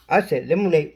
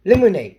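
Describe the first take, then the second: First: Said in the usual way. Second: Shouting the word; shouted. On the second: Real, not acted. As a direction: call it out loud. Calling out the word loudly.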